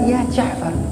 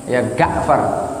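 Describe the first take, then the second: First: The name begins with a J sound. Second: The name begins with a hard G sound. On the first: The speaker calls it right. "Itu kan enak itu dengernya" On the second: The speaker calls it wrong. "Mereka manggilnya ya Ga'far"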